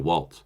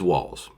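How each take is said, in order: First: A t sound comes before the final z. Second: No t sound comes before the final z. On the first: The speaker calls it wrong. "for some reason you want to put a T in there" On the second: The speaker calls it right. "doesn't have a T"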